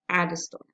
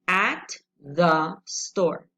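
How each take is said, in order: First: The words run together with a reduced middle. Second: Each word is said fully and separately.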